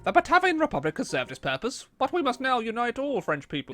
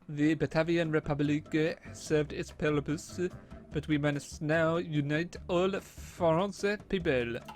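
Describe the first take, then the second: First: It is said in the speaker's usual accent. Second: It is said in a put-on French accent.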